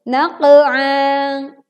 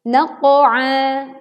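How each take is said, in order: First: The qaf echo is thin, slanting toward an e. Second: The qaf echo is heavy, sounding toward an o. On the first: The speaker calls it wrong. "Berikut contoh yang keliru" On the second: The speaker calls it right. "Contoh yang tepat adalah menebalkan pantulan huruf qaf sukun"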